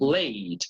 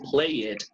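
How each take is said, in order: First: The -ed ending adds no extra syllable. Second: The -ed ending is sounded as an extra syllable. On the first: The speaker calls it right. "you say played" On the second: The speaker calls it wrong. "You don't say play it"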